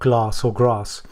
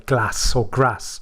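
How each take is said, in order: First: The A vowel is said long and soft. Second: The A vowel is said short and harsh. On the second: "I pronounce my A's quite harsh, so I'll say"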